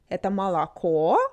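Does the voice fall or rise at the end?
rise. The pitch rises at the end. It is asked as a question.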